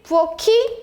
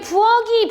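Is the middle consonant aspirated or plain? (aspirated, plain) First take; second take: aspirated; plain. First: The middle consonant is an aspirated k sound. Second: The middle consonant is a plain g sound. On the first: The speaker calls it right. "이렇게 발음하는 게 맞는 거지" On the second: The speaker calls it wrong. "부어기, 부어근이라고 하면 돼요, 안 돼요? 안 되지"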